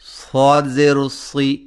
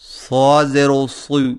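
First: The vowel is thin and light, pitched low. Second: The vowel is thick and heavy in sound. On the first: The speaker calls it right. "اس کی آواز میں ہمیشہ باریکی اور پستی پائی جاتی ہے، خواہ موٹے حرف پر ہی کیوں نہ ہو" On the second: The speaker calls it wrong. "زیر کو موٹی آواز میں یو پڑھنا ... درست نہیں"

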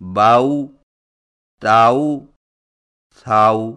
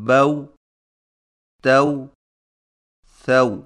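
First: The vowel before w is stretched toward aa. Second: The vowel before w stays a short a. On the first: The speaker calls it wrong. "یہ نہایت غلط طریقہ ہے" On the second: The speaker calls it right. "واویلین کی صحیح ادائیگی دوبارہ سماعت فرمائیے"

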